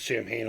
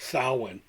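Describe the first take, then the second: First: It is said like 'sam-hane', with a clear h. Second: It is said like 'sow-in', without a clear h. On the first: The speaker calls it wrong. "I called it Sam Hain all, all my life until I got learned" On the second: The speaker calls it right. "It's not really pronounced that way. It's Samhain"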